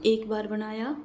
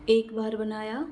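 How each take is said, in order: Both takes have the same delivery.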